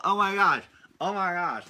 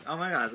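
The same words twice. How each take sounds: First: Higher and louder, hammed-up delight; playful listener suddenly getting the idea; mock delighted gasp. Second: Said in the usual way. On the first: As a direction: sell it as a sudden brilliant idea. Mock parent's delighted realization.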